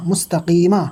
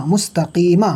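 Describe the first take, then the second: No difference in how they are said.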